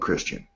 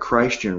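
First: The first syllable sounds like a short 'kris'. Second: The first syllable sounds like the name Christ.

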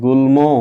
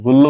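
First: The cluster is pronounced as l followed by m. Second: The cluster is pronounced as a doubled l. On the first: The speaker calls it right. "আমরা বলি গুল্ম" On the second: The speaker calls it wrong. "গুল্ল কিন্তু বলি না"

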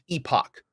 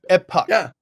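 First: The word has the British pronunciation. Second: The word has the American pronunciation. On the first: "in Britain it is pronounced Epoch" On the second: "in America and other places it's pronounced Epoch"

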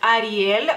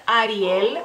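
The two takes are said the same way.

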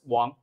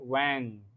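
First: It is said with a Mandarin Chinese pronunciation. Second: It is said with an American English pronunciation. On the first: "But in Chinese, it's just Wang" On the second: "I think American people would like to pronounce like Wang"

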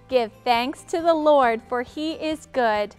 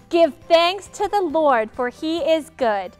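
First: It is said in a calm, ordinary way. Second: It is said with a lot of energy.

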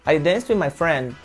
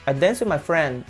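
Both takes have the same delivery.

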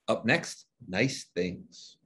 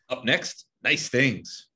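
First: It is said flatly, with little energy. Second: It is said with more energy and passion.

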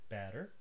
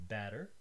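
No difference in how they are said.

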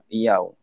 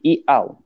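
First: The second vowel starts with a y sound. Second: The second vowel starts with a glottal stop. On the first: "dia akan tukarkan hamzah kedua menjadi huruf ya" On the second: "pertemuan dua hamzah dalam dua kalimah"

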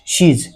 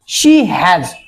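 First: The h sound is dropped, making one syllable. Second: Both words are said fully, h included.

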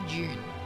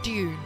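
First: The word begins with a 'j' sound. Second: The word begins with a plain 'd' sound. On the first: "We say June" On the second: "we don't pronounce Dune"

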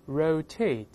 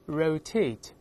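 Both takes have the same delivery.

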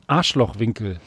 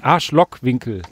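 First: The middle consonant is a soft ch sound. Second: The middle consonant is a hard k sound. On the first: The speaker calls it wrong. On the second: The speaker calls it right. "Sorry, muss man korrekt sagen"

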